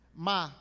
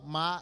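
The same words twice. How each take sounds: First: Ma is said with the tone meaning curse. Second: Ma is said with the tone meaning mother. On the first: The word means to curse. "ma maldizer" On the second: The word means mother. "ma é mãe"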